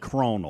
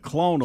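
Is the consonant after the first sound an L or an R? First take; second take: R; L. First: The word is said with an R sound. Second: The word is said with an L sound. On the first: The speaker calls it wrong. "you'll add an R" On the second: The speaker calls it right. "instead of clonal"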